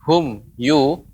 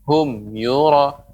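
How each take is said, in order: First: There is a short break between the words. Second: The two words run together without a break. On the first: The speaker calls it wrong. "ini jeda" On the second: The speaker calls it right. "akan tapi menyambung ya, tapi tetap jelas"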